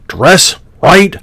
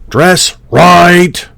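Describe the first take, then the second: First: The word right is short and on the beat. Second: The word right is stretched over two beats. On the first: The speaker calls it right. "There's the tempo" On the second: The speaker calls it wrong. "You're elongating the right and then creating ex- essentially two beats"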